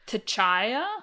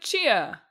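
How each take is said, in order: First: The name begins with a t before ch. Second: The name begins with a plain ch sound. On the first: The speaker calls it wrong. "after like three weeks of us being like" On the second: The speaker calls it right. "which is how you say it"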